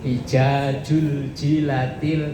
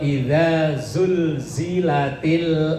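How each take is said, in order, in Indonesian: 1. Konsonannya dibaca sebagai bunyi j. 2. Konsonannya dibaca sebagai bunyi z.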